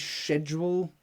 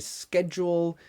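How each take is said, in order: First: It is said with a British pronunciation. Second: It is said with an American pronunciation. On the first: "British people say schedule" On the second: "Americans say schedule"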